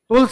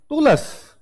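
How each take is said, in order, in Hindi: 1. शब्द मानक उच्चारण में बोला गया है। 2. शब्द में एक अतिरिक्त क्षेत्रीय स्वर है। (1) "टूल्स नहीं" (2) "हम टूलस नहीं है"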